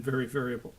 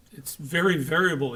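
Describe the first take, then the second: First: Said in the usual way. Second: A light imitation of a thick Polish accent. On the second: Lecturer imitating a Polish coworker, light Polish accent. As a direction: mimic the Polish brewery fellow's thick Polish accent, understated. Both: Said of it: "he said, in a really thick accent".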